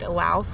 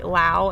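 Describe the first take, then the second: First: The name ends with an S sound. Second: The name ends without an S sound. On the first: This is how foreigners seem to say it. "foreigners called it Laos with the S" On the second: This is how locals seem to say it. "locals called the country Lao"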